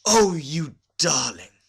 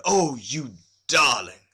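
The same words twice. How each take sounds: First: Loud, high, slow gushing exclamation; delighted gush. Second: A lightly voiced, slow delighted exclamation; mild delight. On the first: Women visitors grabbing Olga's hand, delighted gush. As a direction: gush over her with delight. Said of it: "in a transport of delight". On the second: Husband admiring his bride, mildly delighted exclamation. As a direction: admire her, a touch smitten. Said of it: "he threw up his hands and said". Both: A narrator's reading.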